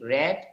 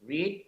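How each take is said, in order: First: The vowel is short, like in 'bed'. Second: The vowel is long, like in 'seed'. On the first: It is the past tense form. "পরের দুটো হচ্ছে রেড" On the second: It is the present tense form. "প্রথমটা শুধু রিড"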